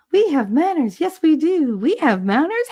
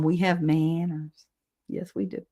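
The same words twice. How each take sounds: First: Much higher, swooping mock-prim voice; playful put-on voice. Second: Said in the usual way. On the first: Streamer playfully repeating herself to chat, high put-on voice. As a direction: parrot the line in a high, lilting character voice.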